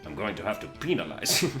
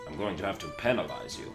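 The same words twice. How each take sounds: First: The word penalize is pronounced in an odd way. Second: The word penalize is pronounced in a normal way. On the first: "It's fantastic" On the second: "there's nothing funny about that"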